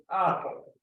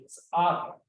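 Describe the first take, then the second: First: "apple" slowly, without any S before it; bare root pronunciation. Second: "it's apple" with an S sound set before the root; nominalized pronunciation. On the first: Panelist saying just the last sounds, slow demonstration. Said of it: "say just the last things". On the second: Panelist adding the nominalizer to the root, demonstrated pronunciation. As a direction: put the S onto "apple". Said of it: "I'm nominalizing the thing". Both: Shown as a demonstration.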